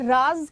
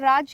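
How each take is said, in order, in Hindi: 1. यह शब्द z ध्वनि से शुरू होता है। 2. यह शब्द j ध्वनि से शुरू होता है। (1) "तो ये राज क्या है, रहस्य।" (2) "और यहां पर राज क्या है, राज्य।"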